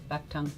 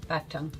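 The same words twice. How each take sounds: No difference in how they are said.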